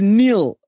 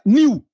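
First: It is said plainly with a final L. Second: It is said in a Shona accent without L.

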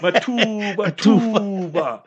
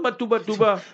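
First: The name is said with a careful, stylized pronunciation. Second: The name is said plainly, without special style. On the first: The speaker calls it right. "You must say it in a style. There's the tajweed there" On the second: The speaker calls it wrong. "Not Matubatuba"

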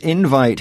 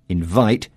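First: The stress is on the first syllable. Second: The stress is on the second syllable.

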